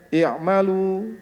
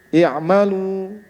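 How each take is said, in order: First: The final vowel is spread with lips smiling. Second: The final vowel is spread with lips smiling.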